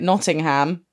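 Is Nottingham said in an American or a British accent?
American. The name is said in an American accent. This is how the film's characters say it. The speaker calls it wrong. "why are they calling it Nottingham"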